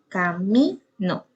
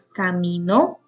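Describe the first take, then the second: First: The stress is on the middle syllable. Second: The stress is on the last syllable. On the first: "el acento está en mi" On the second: "el acento está ya en la última sílaba"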